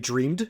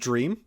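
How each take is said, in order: First: The final d sound is clearly pronounced. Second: The final d sound is left off. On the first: "She doesn't say dreamed" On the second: "she goes dream"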